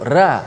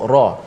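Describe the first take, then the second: First: The ra sound is thin and light. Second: The ra sound is heavy and full. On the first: The speaker calls it wrong. "Kita tak sebut ra" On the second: The speaker calls it right. "kita sebut ra"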